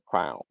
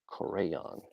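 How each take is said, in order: First: It is said as one syllable, 'crown'. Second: It is said as two syllables, 'cray-on'.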